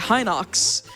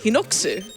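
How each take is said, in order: First: It ends with a bare ks sound. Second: It ends with an added su syllable. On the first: This is how most people say it. "where people say Hinox" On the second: This is the original Japanese pronunciation. "the Japanese pronunciation is Hinoksu"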